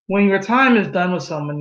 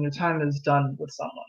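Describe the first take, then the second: First: Said in the usual way. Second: Repeated much softer and lower; softer echo. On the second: Shown as a demonstration. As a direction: let the repeat sink in quietly.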